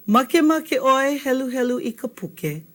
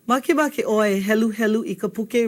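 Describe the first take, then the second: First: Falls at the end like a statement; "Makemake oi helu helu i ka puke." said as a plain statement falling on puke; statement tune. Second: Ends rising like a question; "Makemake oi e helu helu i ka puke?" asked with a rise on puke; question tune. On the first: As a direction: state it flat and let puke drop. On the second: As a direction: ask it, lift the last word puke. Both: Shown as a demonstration. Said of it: "the question is only a question because of the way we say it".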